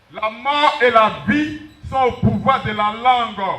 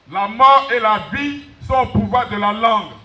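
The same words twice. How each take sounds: The two takes are said the same way.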